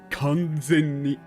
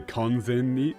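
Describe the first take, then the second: First: The word is said with strong emphasis. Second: The word is said plainly, without a stretched consonant. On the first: "she really puts the emphasis on it" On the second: "she doesn't just say kanzen"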